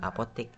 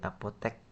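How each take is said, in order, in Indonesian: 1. Suku kata terakhir diucapkan dengan vokal i. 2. Suku kata terakhir diucapkan dengan vokal e. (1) "bukan apotik" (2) "bukan apotik"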